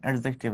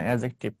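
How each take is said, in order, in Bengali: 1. প্রথম স্বরধ্বনির পরের D ধ্বনিটি উচ্চারিত হয়। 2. প্রথম স্বরধ্বনির পরের D ধ্বনিটি নীরব। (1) "ডি এর উচ্চারণ হবে না, অ্যাডজেক্টিভ না" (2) "এডি যে পাশাপাশি থাকলে ডি এর উচ্চারণ হয় না"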